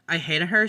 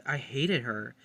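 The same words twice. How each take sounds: First: Louder, ending on a rising her; loud repeat. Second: Said in the usual way. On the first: Real, not acted. Vlogger on Paloma self-evicting, loud emphatic repeat. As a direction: blurt it out the second time.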